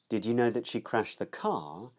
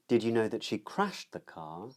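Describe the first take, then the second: First: The main stress falls on the word car. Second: The main stress falls on the word crashed. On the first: It asks whether the listener knew it was the car and not something else. "Questions whether the other person knew that it was the car that she crashed as opposed to something else" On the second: It asks whether the listener knew what happened to the car. "Questions whether the other person knew the state of the car"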